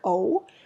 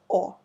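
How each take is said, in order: First: The vowel glides toward an oo sound. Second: The vowel is short and stays pure. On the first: "in English it's more like o, so you have a little bit of u sound in the end" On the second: "in Russian it's shorter, it's just o"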